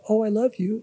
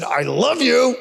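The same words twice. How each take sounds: First: High, gushing and sweet; mean every word of it; a heartfelt Oh, I love you; sincere. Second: High, sour mock affection; a snide, pitched-up I love you; sarcastic. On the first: Retold or imitated. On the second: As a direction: say it as if you mean the opposite. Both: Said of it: "that wasn't like".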